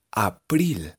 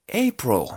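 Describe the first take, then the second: First: April read the Spanish way, ah-PRIL; April with open A and clear IL; read as spelled. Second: April said as EY-pro; April with the I turned into O; English pronunciation. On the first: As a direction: say April letter by letter in Spanish sounds. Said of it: "Así se escribe abril". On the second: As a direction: start April with hey, end it in an O. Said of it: "esta palabra se pronuncia". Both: Shown as a demonstration.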